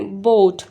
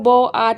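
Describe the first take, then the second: First: Only one vowel is sounded, giving one syllable. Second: Both vowels are sounded, giving two syllables. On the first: The speaker calls it right. "पहले वाले को sound आ रहा है और second का silent हो गया" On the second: The speaker calls it wrong. "हम लोग बो आट नहीं बोलते ना"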